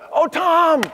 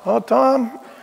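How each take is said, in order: First: It sounds delighted and warm. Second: It sounds reluctant and unenthusiastic.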